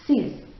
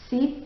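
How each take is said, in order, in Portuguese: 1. A consoante final é pronunciada. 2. A consoante final não é pronunciada. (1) "O X aí vai ter um sonzinho de Z, mas ele é bem sutil" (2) "não falo o X"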